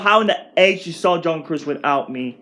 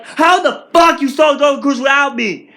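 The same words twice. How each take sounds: First: Said in the usual way. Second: Loud, high, outraged question; angry outburst. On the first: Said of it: "I said to myself". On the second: Retold or imitated. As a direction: yell it at the family who went without you. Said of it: "my reaction was like".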